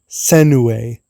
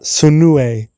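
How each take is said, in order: First: The first vowel sounds like 'eh'. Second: The first vowel sounds like 'uh'. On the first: The speaker calls it right. "It's Jun Senue" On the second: The speaker calls it wrong. "not Sunue"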